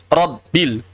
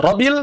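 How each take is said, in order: First: "Rabbil" slow, split rob-bil with held b; doubled b. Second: "Rabbil" said as ro-bil, no held b; single b. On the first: Teacher corrects the reading, "Rabbil" with firm double b. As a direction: close on the b, then release "Rabbil" as rob-bil. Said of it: "tapi Rabbil". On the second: Teacher shows the wrong reading, "Rabbil" with one light b. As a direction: glide through "Rabbil" as ro-bil. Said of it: "Bukan Rabbil". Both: Shown as a demonstration.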